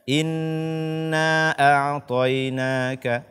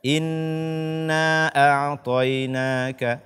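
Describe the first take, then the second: First: The vowel of inna is cut short. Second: The same.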